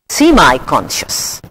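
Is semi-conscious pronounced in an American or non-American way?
American. The word is said in an American way.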